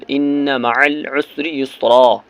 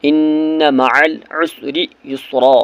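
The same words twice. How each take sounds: First: ان مع العسر یسرا with the نّ held in a nasal ghunna; slow recitation with ghunna on ان; nasalised ghunna. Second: ان مع العسر یسرا again slowly, نّ nasal; second slow take of ان مع العسر یسرا; measured recitation of the verse; ghunna repeated. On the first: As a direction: hold the doubled نون nasally in ان. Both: Shown as a demonstration. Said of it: "گنہ کرنا ہے".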